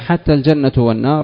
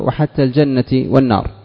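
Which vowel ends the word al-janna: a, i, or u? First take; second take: u; i. First: Al-janna ends with a u vowel. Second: Al-janna ends with an i vowel. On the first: The phrase starts a new clause as its subject. "على الابتداء والاستئناف" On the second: The phrase is joined to the word 'thing' as written. "ولفظها مجرور"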